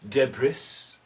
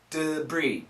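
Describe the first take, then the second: First: The last syllable sounds like 'bris'. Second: The last syllable sounds like 'bree'. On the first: The speaker calls it wrong. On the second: The speaker calls it right. "it's a D, and then a bree"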